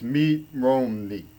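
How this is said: The name is said with a Japanese-like accent.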